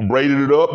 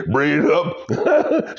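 First: Said in the usual way. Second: Slow, laughing "Braided it up"; laughing repeat. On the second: Real, not acted. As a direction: draw out "Braided it up" through a laugh.

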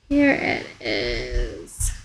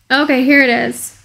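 First: Much lower, very slow and drawn out; mock deep voice. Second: Said in the usual way. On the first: Streamer echoing herself on finding the park, in a deep slow joke voice. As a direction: drop into a silly deep slow-motion voice. Jokey echo of her own words.

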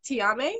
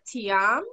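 First: Tiame with an added vowel at the end; alternative pronunciation. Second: Tiam as two syllables, ending on the m; trying a pronunciation. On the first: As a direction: offer "Tiame" as a question, final vowel sounded. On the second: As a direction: try "Tiam" without a final vowel. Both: Shown as a demonstration. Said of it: "how do you pronounce your name".

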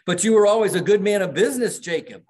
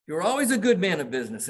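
First: Much higher, louder and fast, protesting; Scrooge pleading. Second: Scrooge insisting. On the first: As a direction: blurt it out in a rush, high and loud. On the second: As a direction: say it again quickly, without pushing the volume. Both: Retold or imitated. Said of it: "Scrooge says".

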